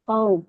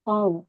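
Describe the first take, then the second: The two takes are said the same way.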